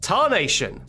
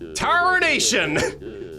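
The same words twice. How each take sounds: First: It is said in the speaker's normal voice. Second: It is said in a put-on cowboy accent.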